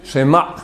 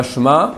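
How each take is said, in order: First: Shema with a short e after Sh; correct Shema. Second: Shema said clipped as Shma; wrong Shma. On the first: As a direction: say She-ma with a brief vowel. (Shema avec le chva bref) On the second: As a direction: drop the vowel, Shma. (Shema prononcé Shma, fautif) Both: Shown as a demonstration. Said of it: "il y a un Shevana".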